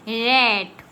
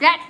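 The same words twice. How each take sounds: First: The vowel is long, like in rate. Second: The vowel is short, like in rat. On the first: The speaker calls it right. "हम क्या पढ़ते हैं" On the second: The speaker calls it wrong. "अब इसको हम ऐसे तो नहीं पढ़ सकते हैं, रैट रैट नहीं पढ़ते ना"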